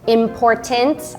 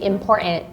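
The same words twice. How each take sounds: First: The middle T is clearly pronounced. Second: The middle T is dropped.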